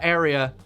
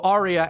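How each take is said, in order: First: It sounds like the ordinary word area. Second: It sounds like the musical word aria. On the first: The speaker calls it wrong. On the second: The speaker calls it right.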